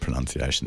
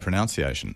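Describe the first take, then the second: First: The second syllable sounds like 'nun'. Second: The second syllable sounds like 'noun'. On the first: The speaker calls it right. "I'm really glad you said pronunciation" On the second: The speaker calls it wrong. "a lot of people say pronunciation"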